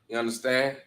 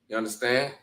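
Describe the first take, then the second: The two takes are said the same way.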